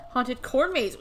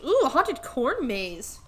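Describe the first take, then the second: First: Said in the usual way. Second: Slow, delighted ooh; excited. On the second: Real, not acted. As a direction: savor the idea with delight.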